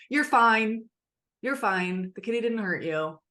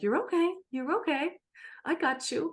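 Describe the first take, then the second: First: Mildly brisk dismissive parent; brushing off. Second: Gentle reassurance. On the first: Parent brushing off a scared child, lightly curt. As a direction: wave the child's fear away, a touch curt. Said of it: "Instead of". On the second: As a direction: hold the child close with a gentle coo. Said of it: "a secure way to say". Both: Retold or imitated.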